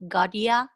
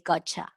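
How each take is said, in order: First: The t and y sounds stay separate. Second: The t and y merge into ch. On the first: "instead say something like got ya" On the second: "the T near the Y sounds like ch"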